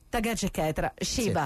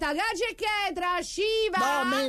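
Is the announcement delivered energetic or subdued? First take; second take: subdued; energetic. First: It is said more calmly and with restraint. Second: It is said loudly with high, excited energy. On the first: "più sobrio" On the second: "No, meno, più sobrio"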